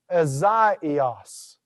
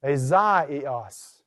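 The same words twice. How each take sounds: First: Azaios said ah-zah-EE-os, each vowel on its own; vowels apart. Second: Azaios again, ah-zah-EE-os, each letter sounded; Azaios, every vowel said on its own; vowels apart. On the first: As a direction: Azaios with the alpha and iota split. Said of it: "notice how I took what was normally a diphthong". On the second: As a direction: Azaios with the diphthong split into two vowels. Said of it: "I pronounced each letter of that". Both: Shown as a demonstration.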